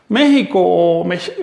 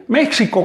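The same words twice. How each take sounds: First: "México" slow, with Spanish jota, me-hi-co; Spanish J pronunciation. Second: Mock the gringo "Meksico"; American English accent. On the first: Shown as a demonstration. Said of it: "se pervierte la pronunciación". ("México" con jota española, lento) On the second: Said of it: "como dicen allá en el norte". ("México" con acento gringo, ks, riendo)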